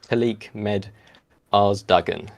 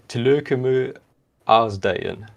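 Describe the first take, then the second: First: It is pronounced following English spelling rules. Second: It is pronounced the Danish way. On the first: The speaker calls it wrong. "if you just read it with like English English reading rules" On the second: The speaker calls it right. "what is it in Danish?"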